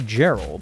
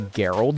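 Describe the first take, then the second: First: The name begins with a soft J sound. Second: The name begins with a hard G sound. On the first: The speaker calls it right. "a G pronounced like a J" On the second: The speaker calls it wrong. "you don't say Gerald"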